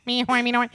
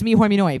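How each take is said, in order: First: Higher cartoon gibberish; Doodle Bob gibberish. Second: Loud cartoon gibberish voice; Doodle Bob gibberish. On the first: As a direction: chant nonsense like a scribble monster. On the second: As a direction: bark nonsense words like a scribble creature. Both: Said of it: "Doodle Bob now from SpongeBob".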